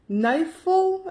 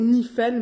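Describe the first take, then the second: First: The name is pronounced the English way. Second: The name is pronounced a non-English way. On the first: "je le prononce en anglais" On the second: "Ou Nifel, mais Nifel, ça, je sais pas"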